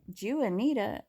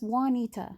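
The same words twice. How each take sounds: First: The name is said in an anglicized way. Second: The name is said in a Spanish way. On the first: The speaker calls it wrong. "I kept hearing her talk about the main character" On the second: The speaker calls it right. "that's not, no, no, no, that's Juanita"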